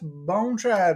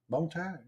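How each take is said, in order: First: The second word has an r after the t. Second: The second word has no r after the t. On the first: The speaker calls it wrong. "She won't say bone tried" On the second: The speaker calls it right.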